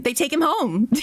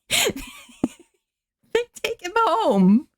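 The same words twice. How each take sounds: First: Said in the usual way. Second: High, drawn-out laughing repeat. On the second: Real, not acted. Laughing at the absurd ending to her viewers. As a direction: laugh the words out slowly up high.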